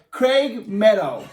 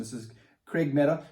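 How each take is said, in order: First: Craig Meadow drawn out slowly, higher and louder; grand slow introduction of Craig Meadow; slow announcer-style name call. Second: Said in the usual way. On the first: Shown as a demonstration.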